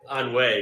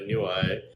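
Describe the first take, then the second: First: It is said like 'on wee'. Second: It is said like 'a new eye'. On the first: The speaker calls it right. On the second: The speaker calls it wrong.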